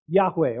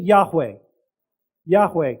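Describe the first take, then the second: First: Yahweh said low and slow, YAH-weh; saying Yahweh. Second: Yahweh spoken low with falling tune; Yahweh repeated together. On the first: Pastor teaches congregation the name Yahweh, low falling. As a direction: model the name Yahweh, clear falling stress. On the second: Congregation repeats Yahweh with pastor, low falling. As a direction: echo Yahweh, YAH-weh. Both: Shown as a demonstration. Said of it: "You say it with me?".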